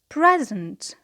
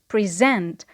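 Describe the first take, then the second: First: The stress is on the first syllable. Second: The stress is on the second syllable. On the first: It is a noun meaning a gift or the current moment. "it is on the first syllable because it is a noun" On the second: It is a verb meaning to introduce something. "the stress is on the second syllable"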